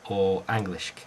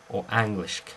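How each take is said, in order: Both takes have the same delivery.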